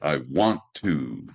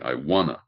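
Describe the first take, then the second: First: Both words 'want to' are said fully. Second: The words blend into a shortened 'wanna'.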